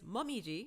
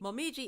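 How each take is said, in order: First: It is said with a Japanese-style pronunciation. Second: It is said with an English-style pronunciation. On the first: "native pronunciation" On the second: "little to no inflection"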